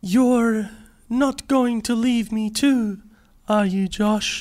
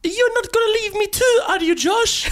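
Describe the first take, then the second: First: Put-on slow, deliberate Australian accent, raised pitch. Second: Put-on high-pitched, botched French accent mistaken for Indian; wild foreign accent. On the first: Actor as Josh asking Maya not to leave, Australian accent. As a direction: act it slowly in a careful Australian accent. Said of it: "Maybe I'll just do it with an Australian accent". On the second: Actor auditioning as Josh pleading with Maya, wild accent. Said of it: "That's a wild accent".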